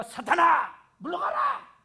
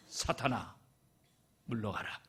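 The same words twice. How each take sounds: First: High, loud rebuke, the last word flung up in a shriek. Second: Said in the usual way. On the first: Shown as a demonstration. Preacher loudly rebukes a deaconess as if casting out Satan. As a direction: cast the devil out with full force. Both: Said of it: "권사님한테 내가".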